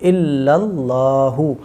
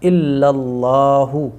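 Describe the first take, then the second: Both takes have the same delivery.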